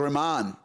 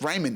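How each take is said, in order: First: The name is pronounced the Pakistani way. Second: The name is pronounced the Australian way. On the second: "it's Raymond in here in Australia"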